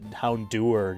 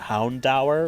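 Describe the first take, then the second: First: The ending does not rhyme with hour. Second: The ending rhymes with the word hour. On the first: The speaker has always said it this way. "I've always called it Houndour" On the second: Someone else said it this way. "he always pronounced it Houndour, like hour"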